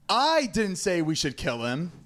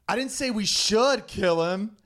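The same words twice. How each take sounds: First: The stress is on the word 'I'. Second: The stress is on the word 'should'.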